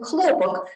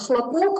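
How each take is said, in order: First: The stress is on the first syllable. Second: The stress is on the second syllable. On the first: It means cotton. "pronounced with the first syllable stressed and means cotton" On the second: It means a bang. "pronounced with the second syllable stressed and means a bang"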